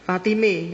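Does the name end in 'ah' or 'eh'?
eh. The name ends with an 'eh' sound. It is how Betawi people say it.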